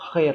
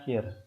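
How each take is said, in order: First: The word starts with a harsh, scraping throat sound. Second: The word starts with a soft, breathy h sound. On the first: The speaker calls it right. "dibaca khair ya" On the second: The speaker calls it wrong. "bukan dibaca hir"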